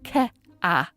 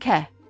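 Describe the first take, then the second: First: The vowel splits into two separate syllables. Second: The vowel is one flat sound without glide. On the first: "as two distinct syllables rather than a smooth glide" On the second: "care might sound like ke"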